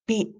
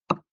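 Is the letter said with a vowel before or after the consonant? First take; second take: after; before. First: A vowel follows the consonant, like 'be'. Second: A vowel precedes the closed-lip consonant, like 'ep'. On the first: "dieja B" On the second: "Huruf B suaranya ep"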